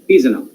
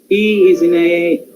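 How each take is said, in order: First: The small words are shortened and run together. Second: Each small word is said fully and clearly. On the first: The speaker calls it right. "he's in a weak form" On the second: The speaker calls it wrong. "strong form ... not like that"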